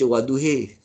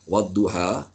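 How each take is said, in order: First: The final vowel is fully tilted toward e. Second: The final vowel is a plain open a. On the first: "bacaan Imalah Kubra" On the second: "kita baca qiraat Imam Hashim"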